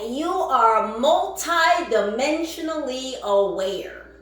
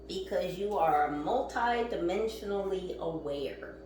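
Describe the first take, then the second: First: It is said a little louder. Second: It is said at normal volume.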